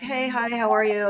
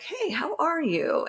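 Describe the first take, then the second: First: The greeting sounds quick and dismissive. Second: The greeting sounds genuine and sincere.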